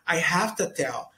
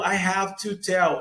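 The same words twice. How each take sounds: First: "Have to" is shortened and run together. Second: "Have to" is pronounced fully and carefully. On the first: "Ele fala" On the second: "ele acaba encurtando e não falando"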